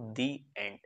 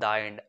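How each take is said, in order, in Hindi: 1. 'The' को लंबे 'ee' स्वर के साथ बोला जाता है। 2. 'The' को छोटे 'uh' स्वर के साथ बोला जाता है। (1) "हमेशा उसे आप पढ़ते हो" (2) "आप उसे कभी ऐसे नहीं पढ़ते"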